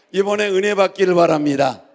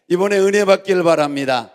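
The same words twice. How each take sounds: The two takes are said the same way.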